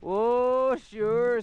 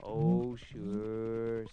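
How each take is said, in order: First: Higher, louder oh sure; the ashes. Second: Low, drawn-out oh sure; the whiskey. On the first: Ashes calling back to the narrator, high and loud. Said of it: "said the ashes". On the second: Whiskey answering the narrator, low and lazy. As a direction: sink the voice down for the whiskey. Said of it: "said the whiskey". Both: Acted.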